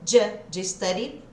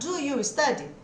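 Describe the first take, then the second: First: The first two words blend into a 'j' sound. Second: Each word is pronounced fully and separately. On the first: "Esse som que você vai ter a hora que você junta" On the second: "ao invés de eu perguntar"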